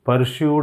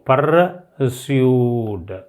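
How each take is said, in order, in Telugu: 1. మధ్య హల్లు 'sh' శబ్దం. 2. మధ్య హల్లు 's' శబ్దం. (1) "చాలామంది పలికేస్తారు. అలా ప్రొనౌన్స్ చేయకూడదని" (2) "దీని ప్రొనౌన్సియేషను పర్స్యూడ్"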